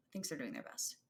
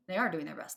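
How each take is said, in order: First: Said in the usual way. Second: ARE punched louder and falling; stress on ARE. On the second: Shown as a demonstration. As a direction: lean hard on the word are.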